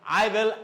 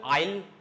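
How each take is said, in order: First: Both words are said in full. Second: The words are contracted into one syllable. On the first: "Here contractions" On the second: "Here contractions"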